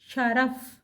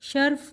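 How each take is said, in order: First: A short vowel is heard between r and f. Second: The r and f run together with no vowel. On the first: The speaker calls it right. "रे के ऊपर भी ज़बर है" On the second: The speaker calls it wrong. "शर्फ़ गलत है"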